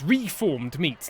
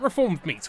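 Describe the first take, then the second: First: The first syllable has a full 'ree' vowel. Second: The first syllable has a reduced 'rih' vowel. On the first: The meat has been formed again. The speaker calls it right. "These are reformed meats" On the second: The meat has mended its bad ways. The speaker calls it wrong. "Not reformed meats. We do not reform oh. criminal meats"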